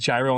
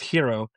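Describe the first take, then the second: First: The word begins with a j sound. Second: The word begins with an h sound. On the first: This is how the word is read from its spelling. The speaker calls it wrong. "but I said gyro on the phone" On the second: This is the proper way to say it. The speaker calls it right. "It's pronounced hero"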